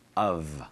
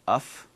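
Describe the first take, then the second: First: The word ends with a V sound. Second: The word ends with an F sound. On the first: The speaker calls it right. "Notice it ends with a V sound" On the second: The speaker calls it wrong. "It's not uff, no"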